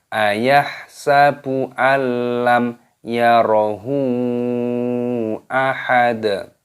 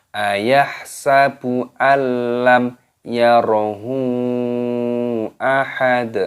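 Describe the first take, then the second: The two takes are said the same way.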